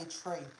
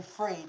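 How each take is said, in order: First: "tree" said for free, the f turned to a t; mock Irish "tree" for free. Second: Said in the usual way. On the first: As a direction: say "tree" with a hard t where f should be. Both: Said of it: "the Irish say it in that sort of way".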